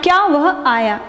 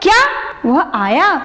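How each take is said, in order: First: It is said in a plain, neutral tone. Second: It is said with an exclaiming, surprised tone. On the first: A simple question about whether he came. "अभी तक general बोल रहे थे" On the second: Amazement that he came. "विस्मयादिबोधक चिन्ह लगा देती हूँ"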